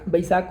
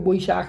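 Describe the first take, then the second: First: It is said with a plain Hindi pronunciation. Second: It is said with a rounded Bengali-style pronunciation.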